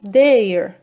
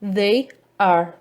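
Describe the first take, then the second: First: The words merge into one syllable, they're. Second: Two separate words, they and are, are said.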